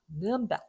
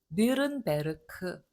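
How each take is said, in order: First: The final k sound is dropped. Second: The final k sound is clearly pronounced.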